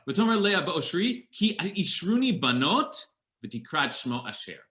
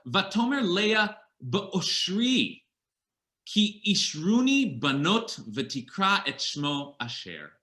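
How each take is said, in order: First: The verse is read with its intended pause. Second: The verse is read without its intended pause. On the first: The speaker calls it right. "With the right pause" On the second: The speaker calls it wrong. "I didn't read that with the right pause"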